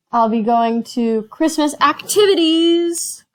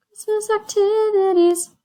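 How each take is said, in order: First: Said in the usual way. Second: Much higher sing-song "Christmas activities"; mock excited. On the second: Real, not acted. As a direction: lift "activities" way up, playfully. Repeating in mock delight.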